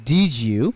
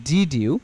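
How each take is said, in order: The two takes are said the same way.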